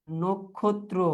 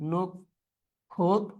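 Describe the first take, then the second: First: Said in the usual way. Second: নক্ষত্র very slowly as nok, khot, tro; syllable by syllable. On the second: Shown as a demonstration. Teacher dictating a spelling to the class, syllable by syllable. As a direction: break নক্ষত্র into three spaced beats.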